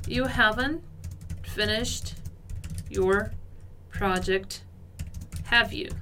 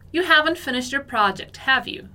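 First: Slow, paused between words; halting teacher demo; word by word reading. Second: Said in the usual way. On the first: Shown as a demonstration. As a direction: lay each word out for the class. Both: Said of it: "nossa última frase".

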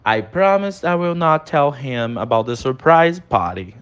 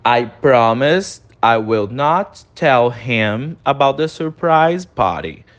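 First: Said in the usual way. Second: Very slow, each word of "I promise I will not tell him" spaced; slow repeat-after-me demo; slow pronunciation model. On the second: Shown as a demonstration. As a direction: say it slowly for students to repeat. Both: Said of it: "repete a pronúncia comigo".

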